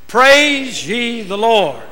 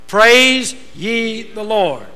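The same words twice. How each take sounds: First: It is said with strong feeling and energy. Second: It is said plainly, without extra energy.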